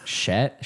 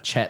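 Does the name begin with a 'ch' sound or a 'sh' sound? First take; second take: sh sound; ch sound. First: The name begins with a soft 'sh' sound. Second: The name begins with a hard 'ch' sound. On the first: The speaker calls it wrong. "I thought it was pronounced like Charlotte" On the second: The speaker calls it right. "I guess it's like Chet, like Cheerios"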